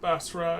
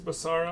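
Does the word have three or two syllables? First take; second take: two; three. First: It has two syllables, with no middle vowel. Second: It has three syllables, with an extra middle vowel. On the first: The speaker calls it right. "There's no extra A in there" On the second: The speaker calls it wrong.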